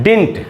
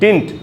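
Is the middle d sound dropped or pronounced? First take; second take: dropped; dropped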